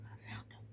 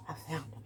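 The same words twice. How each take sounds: First: Soft breathy whisper of relief; hushed relieved whisper; whispered to self. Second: Said in the usual way. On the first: Real, not acted. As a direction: whisper it to yourself. Found earphones, whispering to self.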